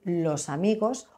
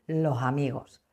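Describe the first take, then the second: First: The s of los is pronounced clearly. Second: The s of los is aspirated like h. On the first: "En lugar de decir los amigos" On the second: "La aspiración de la S es muy característico"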